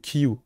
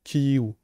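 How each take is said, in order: First: The name ends with a u-like vowel sound. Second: The same.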